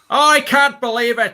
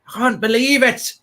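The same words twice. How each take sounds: First: It is said in an Australian accent. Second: It is said in a Geordie accent.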